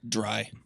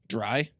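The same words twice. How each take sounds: First: The word is said quietly. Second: The word is said loudly.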